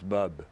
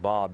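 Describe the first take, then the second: First: The vowel is a short 'uh' sound. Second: The vowel is an open 'ah' sound. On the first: This is how people in Israel say the name. "they pronounce it sort of, it's Bub" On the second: This is the usual way of saying the name. "it's not Bob"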